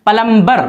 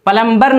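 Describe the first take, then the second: Both takes have the same delivery.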